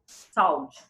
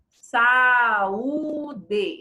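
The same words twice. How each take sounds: First: Saúde squashed into two syllables, SAU-de; run-together vowels. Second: Saúde drawn out as saa-uu-dee; separated vowels. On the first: Teacher showing what not to say, saúde run together. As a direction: glide A into U in saúde as one syllable. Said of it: "Eu não digo saúde". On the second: Teacher showing how it is said, vowels separated. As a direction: stretch each syllable of saúde, A and U apart. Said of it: "Ó, eu digo assim". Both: Shown as a demonstration.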